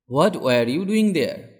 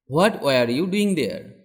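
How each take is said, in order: Both takes have the same delivery.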